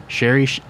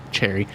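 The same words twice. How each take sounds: First: "Sherry Sh-" with sh instead of ch, then cut off; misread as sherry. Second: "Cherry" said with a clear ch sound at the start; "Cherry" with a firm ch, correcting the slip; corrected to cherry. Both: Real, not acted. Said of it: "'cause I read cherry as sherry".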